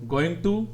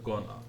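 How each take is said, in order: First: The two words are said fully and separately. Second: The two words are run together into one. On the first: "native speakers हर word अलग नहीं बोलते" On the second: "words को connect करते हैं"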